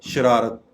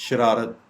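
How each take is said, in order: The two takes are said the same way.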